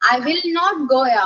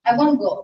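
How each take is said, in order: First: The words 'will not' are said in full. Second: The words 'will not' are contracted to 'won't'.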